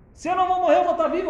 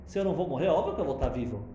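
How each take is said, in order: First: Much higher and louder, triumphant; exultant. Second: Said in the usual way. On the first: Shown as a demonstration. Teacher showing the verse's real meaning, exultant. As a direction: burst out with joy at being alive. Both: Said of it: "O que que David Amelech tá falando".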